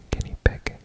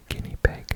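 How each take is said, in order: Both takes have the same delivery.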